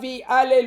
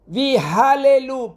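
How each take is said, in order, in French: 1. Le son h est omis, comme un coup de glotte. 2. Le son h est clairement prononcé. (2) "ויהללו, pas ויהללו"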